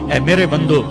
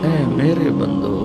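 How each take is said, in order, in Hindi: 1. यह सपाट, सख़्त लहजे में कहा गया है। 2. यह गर्म, नरम लहजे में कहा गया है।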